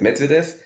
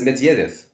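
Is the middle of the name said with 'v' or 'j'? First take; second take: v; j. First: The middle of the name has a 'v' sound. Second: The middle of the name has a 'j' sound. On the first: This is how the umpire says the name. The speaker calls it wrong. "Schiedsrichter sagt Medvedev" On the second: This is how the player says his own name. The speaker calls it right. "er sagt aber, ich heiße Medjedev"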